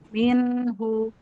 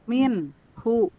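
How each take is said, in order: First: The word flows without any break. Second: A pause splits the word in two. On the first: The speaker calls it right. "harus nyambung" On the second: The speaker calls it wrong. "Jangan gini"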